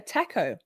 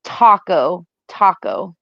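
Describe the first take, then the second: First: Taco said TAK-oh, short a like in cat; Australian taco, flat a; Aussie taco. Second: Taco said TAH-koh, open ah; American taco with a long ah. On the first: Telling viewers how Aussies say it, taco with short a. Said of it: "T A C O is pronounced in Australia". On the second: Co-host showing the US way, taco with open ah. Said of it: "It's called". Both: Shown as a demonstration.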